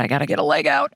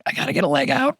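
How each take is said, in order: First: Low grumbling thought. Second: Higher fretting thought. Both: Pretend. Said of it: "This is what my thoughts used to sound like".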